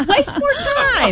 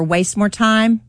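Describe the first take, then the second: First: High, drawn-out sarcastic cheer; laughing mock encouragement, stretched out. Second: Said in the usual way. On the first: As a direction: squeal it sarcastically, half laughing.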